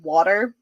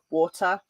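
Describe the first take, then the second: First: The word is said with an American accent. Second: The word is said with a British accent. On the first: The speaker calls it wrong. "That sounds completely foreign coming out of my mouth" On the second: The speaker calls it right. "I still say like water"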